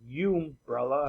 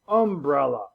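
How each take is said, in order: First: The first vowel is a long U sound. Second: The first vowel is a short U sound. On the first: The speaker calls it wrong. "not umbrella" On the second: The speaker calls it right. "A short U"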